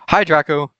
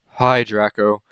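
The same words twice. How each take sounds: First: The greeting sounds plain, not gloomy. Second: The greeting sounds gloomy and depressed. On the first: The speaker calls it wrong. "We're gonna have to try that again" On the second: The speaker calls it right. "I said in the press voice"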